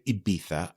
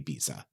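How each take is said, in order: First: The name has a native Spanish-style pronunciation. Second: The name has an anglicized English pronunciation. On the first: The native local name is used. "I don't say Ibiza" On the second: The familiar English name is used. "I say Ibiza"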